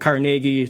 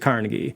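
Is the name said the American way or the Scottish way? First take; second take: Scottish; American. First: The name is said the Scottish way. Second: The name is said the American way. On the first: This is the original pronunciation from the home country. "in Scotland, they would have pronounced the surname Carnegie" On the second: This is the changed pronunciation adopted in America. "like many Americans, you know, they, they change pronunciations"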